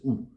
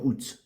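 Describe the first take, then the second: First: The word ends without any T sound. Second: The word ends with an audible T sound. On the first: The speaker calls it right. "On ne prononce pas T à la fin" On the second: The speaker calls it wrong. "C'est pas août"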